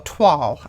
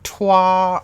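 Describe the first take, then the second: First: The word ends with an L, rhyming with y'all. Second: The word ends in a vowel, with no L. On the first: "somebody said it's like saying y'all" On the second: "I've always pronounced it like twa"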